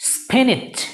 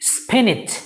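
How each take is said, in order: First: The second syllable sounds like 'nitch'. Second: The second syllable sounds like 'nitch'.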